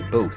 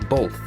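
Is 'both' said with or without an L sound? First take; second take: without L; with L. First: It is said without any L sound. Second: It is said with an L sound before the th. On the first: The speaker calls it right. "It's both" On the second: The speaker calls it wrong. "People pronounce the word both with an L"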